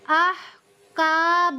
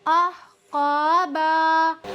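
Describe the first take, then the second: First: The k sound is light and thin. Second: The q sound is heavy and deep. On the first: The speaker calls it wrong. "इस तरह पढ़ने से ये वाला काफ अदा हो जाता है" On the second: The speaker calls it right. "यहाँ पर ये वाला काफ है, इसकी अदायगी है"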